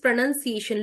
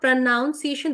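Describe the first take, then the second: First: The second syllable sounds like 'nun'. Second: The second syllable sounds like 'noun'. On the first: The speaker calls it right. "this is pronunciation" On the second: The speaker calls it wrong. "this is not pronunciation"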